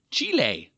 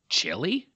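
First: Chile said as CHEE-lay, falling; Spanish-style pronunciation. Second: Chile said as CHILL-ee, rising; anglicized pronunciation. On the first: Podcaster correcting himself on a country, Chile pronounced CHEE-lay. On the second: Podcaster listing listener countries, Chile pronounced CHILL-ee. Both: Shown as a demonstration.

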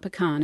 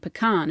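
First: "pecan" said PEE-can, stressed on the first syllable; Southern pecan. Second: "pecan" said pe-KAHN, stressed on the second syllable; Northern pecan. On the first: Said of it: "you'd expect it to be". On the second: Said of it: "and pecan in the North". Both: Shown as a demonstration.

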